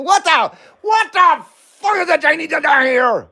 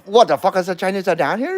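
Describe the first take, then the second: First: High, hammed-up movie line; movie quote. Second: Quick movie line quote. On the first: Replaying the movie quote for chat, high and hammy. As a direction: redo the line pitched way up, hamming it. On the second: Retold or imitated. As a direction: rattle off the movie line fast. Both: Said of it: "You wanna hear that again?".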